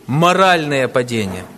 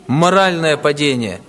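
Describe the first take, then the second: No difference in how they are said.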